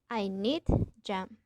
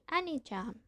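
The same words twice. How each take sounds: First: The d of need is kept distinct. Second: The d of need merges into the j. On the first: "Instead of saying" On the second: "we say"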